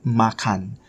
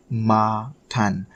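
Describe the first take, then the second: First: Said in the usual way. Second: "makan" slowly split as "ma... kan"; syllable by syllable. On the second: Shown as a demonstration. Teacher repeating the word for learners, slowly in two syllables. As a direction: stretch both syllables of "makan". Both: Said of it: "Kan is sort of like".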